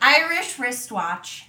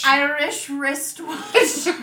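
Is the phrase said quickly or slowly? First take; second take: quickly; slowly. First: The phrase is said at a fast pace. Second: The phrase is said at a slow pace.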